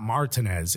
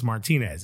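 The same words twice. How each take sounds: First: Martinez said the English way, stress on MAR; anglicized pronunciation. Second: Martinez said mar-TEE-nez; Spanish pronunciation. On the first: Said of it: "correct every English person". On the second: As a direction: stress the long TEE in Martinez. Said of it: "It's not Martinez". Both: Shown as a demonstration.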